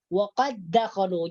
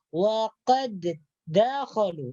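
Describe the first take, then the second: First: The two d sounds merge into one. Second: The two d sounds are pronounced separately. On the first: The speaker calls it right. "dal yang pertama ini tidak dibaca karena sudah diidghamkan" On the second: The speaker calls it wrong. "jangan sampai dibaca dua. Wa qad dakhalu itu yang salah"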